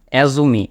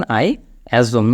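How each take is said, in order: First: "assume" with an extra ee on the end, "assu-mee"; mispronunciation. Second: "assume" drawn out, ending cleanly on m; slow, low "assume" with no vowel after the m; correct pronunciation. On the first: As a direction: add a final ee to "assume". ("assume"-কে "অ্যাজুমি" উচ্চারণ) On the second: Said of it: "উচ্চারণটা খেয়াল করবেন". ("assume" শেষে ই ছাড়া, ম টেনে) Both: Shown as a demonstration.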